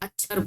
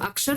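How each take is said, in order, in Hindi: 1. इस शब्द का उच्चारण ग्रामीण, गाँव जैसा है। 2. इस शब्द का मानक, संस्कृत-मूल का उच्चारण है। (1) "उन्हें अक्षर बोलते हैं" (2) "वो लोग अक्षर नहीं बोलते"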